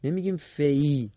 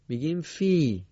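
First: فی with a short i only, x0.7 slow; wrong reading. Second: فی with a long ii held; correct reading. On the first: Teacher shows the mistaken short فی. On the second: Teacher gives the correct long فی. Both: Shown as a demonstration.

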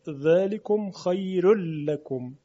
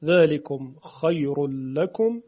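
First: Light, thinned ر at the end of «خیر»; «خیر» recited with a thin ر; Warsh tarqiq. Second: Said in the usual way. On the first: Shown as a demonstration.

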